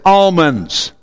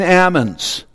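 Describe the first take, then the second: First: The L sound in the word is pronounced. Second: The L sound in the word is silent. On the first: The speaker calls it wrong. "you and I know that word as almonds" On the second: The speaker calls it right. "You don't pronounce the L in almonds either"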